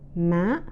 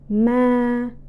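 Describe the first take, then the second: First: The pitch is high and rises. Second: The pitch stays level and flat. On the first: "and the third tones" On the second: "it is the first, the second, and the third tones together"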